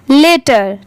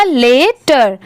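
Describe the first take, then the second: First: Said in the usual way. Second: लेटर as a long ले, then टर; two parts joined. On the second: Shown as a demonstration. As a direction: draw out ले before टर in लेटर. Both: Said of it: "दोनों मिला देंगे".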